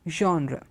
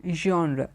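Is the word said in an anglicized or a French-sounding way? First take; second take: French; French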